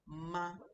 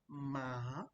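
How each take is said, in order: First: The pitch stays flat and level. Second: The pitch dips down then rises. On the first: "there's no tone up or down. My my voice is just flat" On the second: "Then you have the down up"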